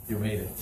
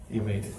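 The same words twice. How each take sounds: First: Said in the usual way. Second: Breathy laugh through the words. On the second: Retold or imitated. Mossad chief greeting Eli, laughing as he speaks. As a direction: laugh it out warmly in relief.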